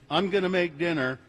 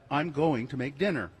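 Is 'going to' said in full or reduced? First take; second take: reduced; full. First: 'Going to' is reduced to 'gonna'. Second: 'Going to' is pronounced in full. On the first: The speaker calls it wrong. "saying gonna instead of going to" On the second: The speaker calls it right. "instead of"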